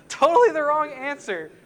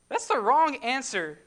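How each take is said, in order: First: "Totally" punched louder and higher, then falling; emphatic repeat. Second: "the" leaned on with a falling close; firm correction. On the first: Preacher to congregation, loudly insisting it is wrong. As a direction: hammer "Totally" home with a loud, higher, falling stress. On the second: Preacher to congregation, firmly correcting Jonah's answer. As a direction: state that's the wrong answer flatly and firmly. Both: Real, not acted.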